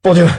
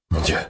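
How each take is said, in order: First: A loud, high shout across the room; shouted exclamation; calling out. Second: Said in the usual way. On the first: Acted. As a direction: call out to him from cover. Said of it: "Je l'interpelle depuis ma cachette".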